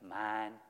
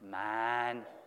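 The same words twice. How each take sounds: First: The word is said plainly at normal volume. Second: The word is said louder than before. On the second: "Now say it a little louder"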